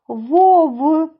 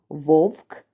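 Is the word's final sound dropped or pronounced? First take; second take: dropped; pronounced. First: The word ends without its final sound. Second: The word ends with its final sound. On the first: The speaker calls it wrong. "Я не доказала кінцівки слів" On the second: The speaker calls it right. "а ви зараз скажете ці слова правильно"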